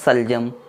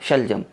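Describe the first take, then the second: First: The word begins with a plain 's' sound. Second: The word begins with an 'sh' sound. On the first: The speaker calls it wrong. "उसको हम पढ़ दें सलजम" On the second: The speaker calls it right. "जो सही है वो बड़ी शीन से ही है"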